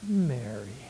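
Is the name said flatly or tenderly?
tenderly. The name is said tenderly, with deep emotion. The speaker is deeply moved by her love and sorrow. The speaker calls it right. "he would have been so touched by her being there"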